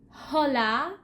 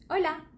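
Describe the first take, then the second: First: The word begins with an audible h sound. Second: The word begins directly with the vowel sound. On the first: The speaker calls it wrong. "I don't want any mistakes like hola" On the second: The speaker calls it right. "H has no sound"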